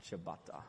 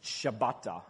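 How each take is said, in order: First: Ciabatta softer and lower, clipped to /əbɑtə/; playful ciabatta. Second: Said in the usual way. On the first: Shown as a demonstration. Preacher plays with the bread name, softer and lower. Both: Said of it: "we always play around with this at home".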